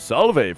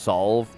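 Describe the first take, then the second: First: A vowel is sounded after the final v. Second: No vowel is sounded after the final v. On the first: The speaker calls it wrong. "When I decided to pronounce the E at the end" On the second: The speaker calls it right. "Or just solve, probably"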